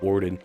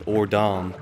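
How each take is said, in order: First: The name is said loosely, with a reduced second vowel. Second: The name is said carefully, with both vowels fully enunciated. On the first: "I always pronounced it Orden, just because it's easier on the tongue" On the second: "so I don't have to enunciate Ordon"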